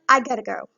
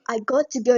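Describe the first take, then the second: First: The words 'got to' blend into 'gotta'. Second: The words 'got to' are said in full. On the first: "you can say I gotta go" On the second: "instead of saying I got to go"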